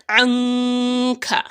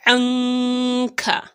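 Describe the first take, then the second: Both takes have the same delivery.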